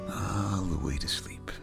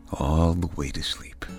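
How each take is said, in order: First: Whispered, fading all the way down; whispered bedtime. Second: Soothing bedtime whisper. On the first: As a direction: breathe it out as a whisper. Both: Acted. Bedtime lullaby close.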